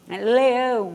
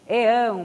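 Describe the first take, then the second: First: The word begins with a clear L sound. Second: The word begins with a vowel, no L. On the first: "O L" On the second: "as crianças falam muito"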